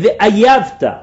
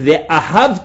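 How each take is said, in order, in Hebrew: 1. הצליל h באמצע נבלע. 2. הצליל h באמצע נהגה. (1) "הוא לא יודע לבטא טוב את ההי. אז הוא אומר ואייבת" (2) "במקום להגיד ואהבת"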